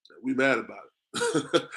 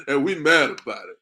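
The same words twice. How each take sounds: First: Drawn out, slow and low; slow, weighty declaration; slow and deliberate. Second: Said through a laugh; laughing as he repeats it. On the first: Shown as a demonstration. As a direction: let each word land slowly. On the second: Real, not acted. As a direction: let the laugh break into the line.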